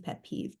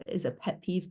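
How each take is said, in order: First: "pet peeve" whispered much softer to herself; whispered aside. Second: Said in the usual way. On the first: Real, not acted. Guest musing on whether it counts, whispering "pet peeve". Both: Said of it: "is a pet peeve, pet peeve".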